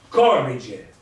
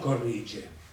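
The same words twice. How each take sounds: First: The stress is on the first syllable. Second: The stress is not on the first syllable. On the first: The speaker calls it right. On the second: The speaker calls it wrong. "non corrige"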